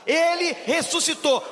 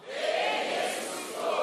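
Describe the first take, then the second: First: It is said loudly and forcefully. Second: It is said with deep, soulful feeling.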